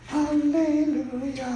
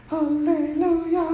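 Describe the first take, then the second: No difference in how they are said.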